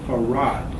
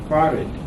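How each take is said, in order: First: The second syllable is louder than the first. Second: The second syllable is very weak and low. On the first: It is the man's own personal name. "the second syllable is louder uh, than the first syllable" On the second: It is the Arabic word meaning obligatory. "the second syllable, you'll notice is very low. You can barely hear it"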